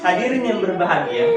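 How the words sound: It is said in a cheerful, happy voice. The speaker calls it right. "suara gembira"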